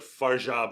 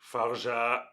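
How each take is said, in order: First: One syllable is stressed more than the other. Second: Both syllables are flat with even stress. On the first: The speaker calls it wrong. "I say like" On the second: The speaker calls it right. "it's just all monotone"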